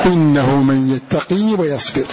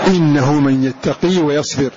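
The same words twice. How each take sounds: No difference in how they are said.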